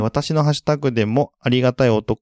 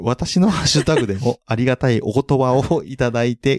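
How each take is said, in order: First: Reading aloud and tripping on おと-; stumbling over the words. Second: Reads お言葉 smoothly without stumbling; a careful correct read of お言葉をいただいて; clean retake. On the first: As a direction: trips mid-word and breaks off at おと-. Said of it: "めっちゃ噛んだね". (噛んでしまった読み方) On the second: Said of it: "お言葉が言えないのね". (言い直し、お言葉をはっきり) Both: Real, not acted.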